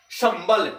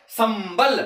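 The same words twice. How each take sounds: First: Sambal drawn out slowly, syllable by syllable; slow demo word. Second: Said in the usual way. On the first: Shown as a demonstration. Teacher to students, slowly voicing Sambal. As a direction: slowly spell out Sambal for the class. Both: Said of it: "एक शब्द है संबल".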